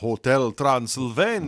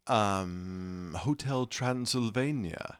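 First: It is said in a put-on character voice. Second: It is said in the speaker's normal voice.

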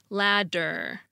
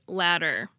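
First: The middle consonant is a full, careful D. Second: The middle consonant is a quick tongue flap. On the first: "For a D, I'll carefully pronounce the word ladder" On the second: "for the alveolar flap, I'll pronounce it ladder"

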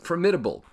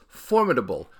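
First: The stress falls on the second syllable. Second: The stress falls on the first syllable. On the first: The speaker calls it wrong. "not formidable. ... but it's wrong" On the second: The speaker calls it right. "it is formidable"

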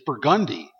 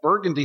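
First: It is said the local New Orleans way. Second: It is said the usual, standard way.

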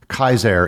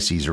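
First: The name begins with a hard k sound. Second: The name begins with a soft s sound. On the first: This is the original Latin pronunciation. "would technically be pronounced" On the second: This is the familiar everyday pronunciation. "we say Caesar ... because that's what everybody knows them as"

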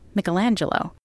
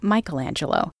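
First: The name is said the Italian way. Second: The name is said the American way.

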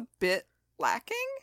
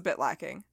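First: The voice rises at the end. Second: The voice falls at the end. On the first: The criticism sounds tentative and softened. The speaker calls it wrong. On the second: The criticism is stated firmly as fact. The speaker calls it right.

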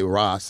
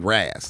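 First: The name is said the Rastafarian way. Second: The name is said with an LA twang. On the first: "we wouldn't say Ross, like Rastafarian"

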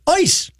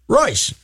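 First: The word begins without any R sound. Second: The word begins with a sounded R. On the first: This is the German way of saying the name. "when you do the German pronunciation, it's Eus" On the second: This is how the river's name is said. "the river is pronounced Reuss"

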